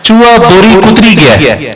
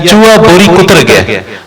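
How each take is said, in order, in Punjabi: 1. ਕਿਰਿਆ ਤੋਂ ਬਾਅਦ ਇੱਕ ਵਾਧੂ 'i' ਸਵਰ ਆਉਂਦਾ ਹੈ। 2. ਕਿਰਿਆ ਤੋਂ ਬਾਅਦ ਕੋਈ ਵਾਧੂ ਸਵਰ ਨਹੀਂ ਆਉਂਦਾ।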